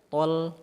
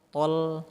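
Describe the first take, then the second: No difference in how they are said.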